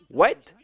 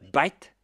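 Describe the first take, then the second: First: It is said with a standard W sound. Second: It is said in an Indian English accent.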